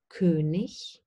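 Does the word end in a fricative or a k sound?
fricative. The word ends in a soft hissing fricative. This is the standard form.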